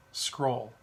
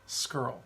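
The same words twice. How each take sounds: First: "Scroll" said with a long o; "Scroll" as the other way of saying the surname; alternative pronunciation. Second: "Skrull" said with an r-colored vowel, like skirl; "Skrull" as the speaker's own way of saying the surname; preferred pronunciation. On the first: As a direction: say "Scroll" to rhyme with roll. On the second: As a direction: say "Skrull" to rhyme with curl. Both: Shown as a demonstration. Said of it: "I say Skrull".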